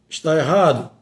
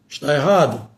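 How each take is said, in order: The two takes are said the same way.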